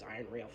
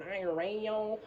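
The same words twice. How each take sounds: First: Said in the usual way. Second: "iron rail" sung out with rising, higher pitch; imitated funny pronunciation. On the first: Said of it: "I always thought he said radio". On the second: Fan copies how the singer says "iron rail", funny drawn-out rise. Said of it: "he just says iron rail funny".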